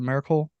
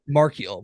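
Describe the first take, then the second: First: The name sounds like the word miracle. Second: The name sounds like mar-kiel, not miracle. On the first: The speaker calls it wrong. "am I saying that right? Is it Miracle?" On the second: The speaker calls it right. "There we go"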